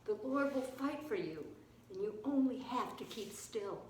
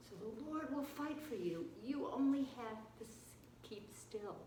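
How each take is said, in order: First: Said in the usual way. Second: Soft, fading almost to nothing; hushed repeat. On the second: Shown as a demonstration. Preacher repeats Moses' promise to keep still, hushed. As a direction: say it gently, sinking into stillness.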